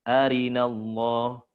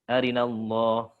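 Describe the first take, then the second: First: The vowel after the r is said in full. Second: The vowel after the r is hurried and clipped. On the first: The speaker calls it right. "Itu harusnya dibaca gimana?" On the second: The speaker calls it wrong. "bukan arinallah gitu"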